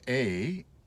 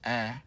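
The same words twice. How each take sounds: First: The vowel sounds like the one in face. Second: The vowel sounds like the one in fat. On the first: "the sound A as in face. We call that a long vowel" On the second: "the A in the word fat, A, as a short vowel"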